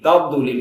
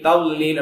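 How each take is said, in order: First: The middle consonant is said with an echoing bounce. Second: The middle consonant is pronounced as an l sound. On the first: "அதுல கல்குலா செஞ்சிருவாங்க" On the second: "லாம பயன்படுத்தி சொல்லுவாங்க"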